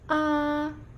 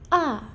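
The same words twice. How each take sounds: First: The pitch stays level and flat. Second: The pitch falls sharply and directly. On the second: "Jatuh seperti orang marah"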